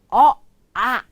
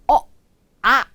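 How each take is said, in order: First: The two vowels are said as separate sounds. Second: The two vowels are said as separate sounds.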